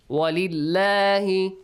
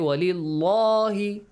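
First: The L in lahi is thin and light. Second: The L in lahi is full and heavy. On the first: The speaker calls it right. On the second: The speaker calls it wrong. "We do not have to say"

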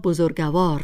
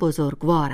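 First: A vowel is sounded between the g and v. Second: No vowel is sounded between the g and v. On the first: The speaker calls it wrong. "بسیاری از مردم ایران آن را بزرگوار می گویند. ولی هیچ یک از این اشکال درست نیست" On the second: The speaker calls it right. "درست همان بزرگوار است"

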